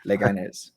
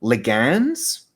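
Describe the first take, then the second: First: Leganés softly repeated as le-ga-NES; repeating the right pronunciation. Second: Leganés said slowly, as a question; unsure try at a Spanish name. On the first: Shown as a demonstration. Trying the correct name after the cohost, quiet repeat. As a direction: quietly echo Leganés with the stress at the end. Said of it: "looking up the phonetic pronunciation". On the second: Real, not acted. Tentative guess at a team's name. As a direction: sound out Leganés hesitantly, rising at the end. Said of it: "I have no idea how to say this team's name".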